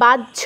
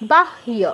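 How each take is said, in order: First: It is pronounced the Bengali way. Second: It is pronounced the Sanskrit way. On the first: "বাংলায় যেটা বাহ্য বলি" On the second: "এটা সংস্কৃতে হবে বাহ্য"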